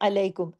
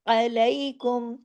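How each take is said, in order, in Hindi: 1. इसमें सादी उर्दू वाली स्वर-ध्वनि है। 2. इसमें अरबी वाला 'ऐन' है और एक हल्का सा ग्लाइड।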